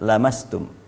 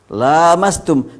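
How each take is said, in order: First: The first vowel is kept short. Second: The first vowel is drawn out long. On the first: The touching comes from one side only. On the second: Both parties touch each other.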